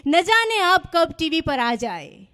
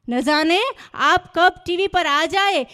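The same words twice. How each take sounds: First: Slow recital with the weight on જાને; mock shayari recital. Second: Slow repeat with the weight moved onto કબ; mock shayari recital. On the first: Comedian teasing the audience with the poem's line, weight on જાને. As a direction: lean on જાને, dragging the line out. First take of repeated couplet line. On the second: Comedian building to the punchline, slow, weight on કબ. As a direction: hold back, then land on કબ.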